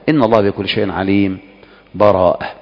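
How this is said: A full stop comes with a new breath. "أو أن تقف"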